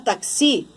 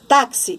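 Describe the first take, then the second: First: The stress is on the last syllable. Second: The stress is on the first syllable. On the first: The speaker calls it wrong. "se eu não acentuar o tá, eu vou ler taxi" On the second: The speaker calls it right. "é táxi, então eu acentuo"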